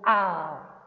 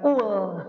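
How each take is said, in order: First: The word begins with an a vowel. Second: The word begins with a u vowel. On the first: The speaker calls it right. "langsung saja kalian sebut al" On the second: The speaker calls it wrong. "jangan ul"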